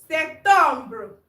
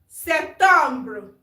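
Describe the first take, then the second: Both takes have the same delivery.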